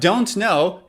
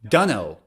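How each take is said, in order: First: Both words are said in full. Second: The words are reduced to 'dunno'. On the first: "instead of don't know" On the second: "native speakers say dunno"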